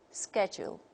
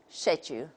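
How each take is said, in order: First: It is said with an American accent. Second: It is said with a British accent. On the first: "according to the American model" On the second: "if we take the British model, we say"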